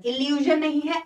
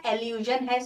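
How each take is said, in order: First: "इल्यूजन" said with an "इ" at the start, marked wrong; mock the wrong "इल्यूजन"; wrong pronunciation. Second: "एल्यूजन" said with an "ए" at the start; correct pronunciation. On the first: (गलत उच्चारण "इल्यूजन") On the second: (सही उच्चारण "एल्यूजन") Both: Shown as a demonstration.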